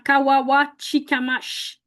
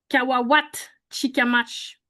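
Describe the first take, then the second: First: The name is said without a t sound. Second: The name is said with a t sound. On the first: "pas de T" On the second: "une variante de prononcer avec un T"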